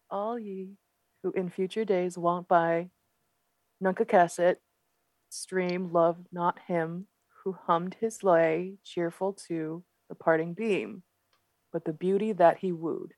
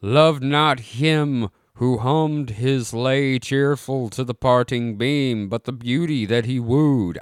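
First: Reading in a soft Boston accent; quiet, careful Boston accent reading. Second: Drawn-out, formal recital; slow solemn reading. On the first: Shown as a demonstration. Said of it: "do it with a Boston accent". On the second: Acted. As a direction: read it like an old epitaph. Reading old inscription aloud.

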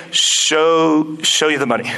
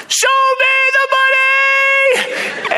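First: Low, halting, half-hearted repeat; reluctant agent. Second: Very high, stretched-out mock scream; lost his mind. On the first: Retold or imitated. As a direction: go along with it unwillingly, pitched low. Retold agent reluctantly repeats the phrase. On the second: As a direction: yell it like an agent losing his mind. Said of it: "he's lost his mind".

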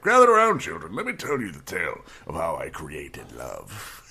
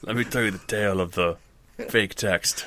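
First: Lightly voiced old grandfather gathering the kids; a hint of a grandpa telling a tale; old grandpa storyteller. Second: Lightly played grandpa spinning a yarn; hint of an old man telling his tale; rambling grandpa story. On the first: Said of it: "this old grandfather now ... be like". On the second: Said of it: "this old grandfather".

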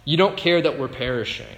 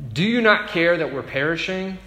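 First: "You don't care" stated, falling at the end; flat accusation. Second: Pleading question, rising and louder; desperate question. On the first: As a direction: say it as a bitter statement, not a question. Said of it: "it is a statement". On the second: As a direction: ask it like frightened men in a sinking boat. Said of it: "not so much a question as it is a statement". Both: Shown as a demonstration.

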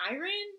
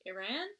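First: High, rising disbelief; a sudden delighted double take; surprised realization. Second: Said in the usual way. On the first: Real, not acted. Cohost echoes the birthplace in high surprise.

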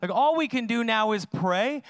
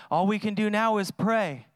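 First: Restated with a rise on "all"; pointed, incredulous restatement; emphatic repeat. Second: Lightly voiced resignation, falling away; a hint of giving up; resigned mock quote. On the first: Shown as a demonstration. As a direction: lean on "all" as if it were absurd. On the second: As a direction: imitate a half-hearted shrug. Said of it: "It's like".

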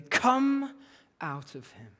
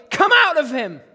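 First: Stern command. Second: Big, loud, higher command for the camera; showy shout. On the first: A narrator's reading. Jesus ordering the spirit out of the man, stern. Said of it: "Jesus said sternly". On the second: Acted. Mock showman performing once the camera is rolling, showy shout. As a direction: bellow it as a hammed-up performance.

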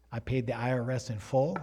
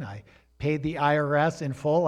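First: Said in the usual way. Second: Said again with weight on "in full" and a rise on "full"; emphatic repeat. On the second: Shown as a demonstration. Pastor insisting to the church he paid, emphatic. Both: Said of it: "I want to say that again".

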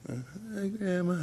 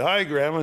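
First: Small, higher, hushed greeting; timid, barely audible. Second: Raised, clearly projected hello; audible greeting. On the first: Shy relative greeting dying Grandma, timid and barely audible. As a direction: imitate a shy mumble to Grandma, too soft to hear. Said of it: "You gotta say it so she can hear ya". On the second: Relative greeting dying Grandma after coaching, clearly audible. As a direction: imitate speaking up so Grandma can hear. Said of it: "say it so she can hear ya". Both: Retold or imitated.

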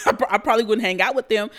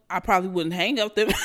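First: Laughing through the repeat, louder and quick; amused, laughing restatement. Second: Said in the usual way. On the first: Real, not acted. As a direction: chuckle the line out again. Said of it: "laughs while repeating". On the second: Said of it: "repeats it laughing".

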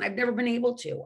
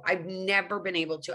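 First: First take, never pushed up in pitch; stress on never. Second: Said in the usual way. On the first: Real, not acted. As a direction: lean hard on never. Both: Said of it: "repeated for emphasis".

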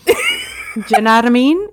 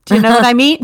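First: Run-together Cockney "jnadamean", amused; Cockney attempt. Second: Said in the usual way. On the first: Shown as a demonstration. Player echoing the game phrase, amused Cockney. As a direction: try it as one Cockney word with a laugh. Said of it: "speaking the phrase with a Cockney".

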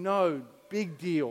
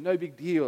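First: No slow and firm, big deal drawn out; stress on No. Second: Said in the usual way. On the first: Acted. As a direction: land No, big deal slowly and weightily. God's reply, slowed and emphatic.

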